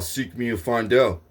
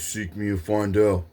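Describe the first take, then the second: First: It is said in a normal voice. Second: It is said in a deep voice.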